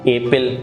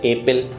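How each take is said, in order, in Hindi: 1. यह रफ़ देसी भारतीय अंग्रेज़ी तरीके से बोला गया है। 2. यह रफ़ देसी भारतीय अंग्रेज़ी तरीके से बोला गया है।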